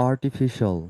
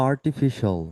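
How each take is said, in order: Both takes have the same delivery.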